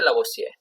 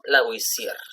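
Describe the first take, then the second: First: The name is said with a plain Spanish accent. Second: The name is said with a French-style accent. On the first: "o simplemente" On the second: "Empezamos primeramente con"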